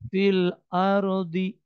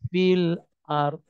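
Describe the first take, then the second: First: The final d is followed by an i vowel. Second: The final d is held without any vowel. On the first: The speaker calls it wrong. "bukan fil ardi" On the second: The speaker calls it right. "mau nyebut huruf terakhir dotnya tapi tidak terucap"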